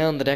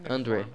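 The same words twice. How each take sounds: First: The name is said with a Brazilian pronunciation. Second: The name is said with a foreign pronunciation. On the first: "Não é André, que nem a pronúncia aqui brasileira" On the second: "sei lá, que tu fala"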